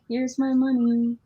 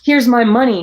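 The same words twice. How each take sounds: First: It sounds timid and unsure. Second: It sounds triumphant and confident.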